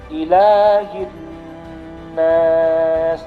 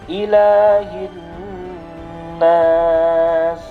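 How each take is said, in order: The two takes are said the same way.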